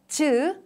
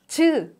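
The two takes are said the same way.

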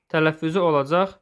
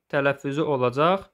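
No difference in how they are said.

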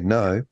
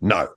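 First: It is said in a plain, neutral way. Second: It is said in a nasty, dismissive way.

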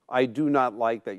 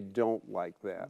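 First: The words 'do not' are said in full. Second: The words are contracted to 'don't'. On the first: This is how people write, not speak. The speaker calls it wrong. "You don't normally say" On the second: This is how people actually speak. The speaker calls it right. "You say"

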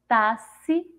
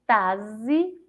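First: The x is sounded as an s. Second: The x is sounded as a z. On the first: "Com som de Si" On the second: "Se eu for ler com som de Z"

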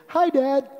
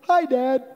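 Both takes have the same delivery.

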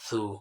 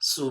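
First: The consonant is a soft, lisped s sound. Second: The consonant is a plain, sharp s sound. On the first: The speaker calls it right. "নরম করে সু" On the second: The speaker calls it wrong. "সু বললে সিনের মতো হয়ে যাবে"

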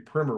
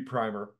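First: The first vowel is short, like in 'prim'. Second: The first vowel is long, like in 'prime'. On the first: "technically it's supposed to be primer, which I hate. ... It doesn't have two M's in it" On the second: "I think it should be primer. ... you prime something"

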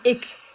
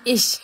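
First: It is said in an eastern German dialect. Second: It is said in standard German pronunciation. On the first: "im Osten sagt man" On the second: "im Hochdeutschen sagt man"

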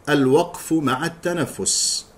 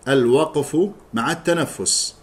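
The two takes are said the same way.

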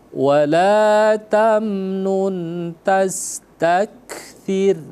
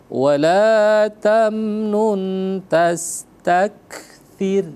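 Both takes have the same delivery.

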